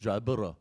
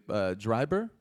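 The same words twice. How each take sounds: First: Put-on "Dryburgh" redone as DRY-bruh-ruh, copying the teen; corrected name. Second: "Dryburgh" said as DRY-ber, unsure rising tone; host guessing "Dryburgh" as dry-BURG with a questioning lift; first try at the name. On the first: Host echoes the correction: "Dryburgh" as DRY-bur-uh. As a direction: repeat "Dryburgh" the Scottish way, rolled DRY-bur-uh. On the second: Host checks a Scottish surname: "Dryburgh" tried as dry-ber. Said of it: "am I saying it correctly?". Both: Shown as a demonstration.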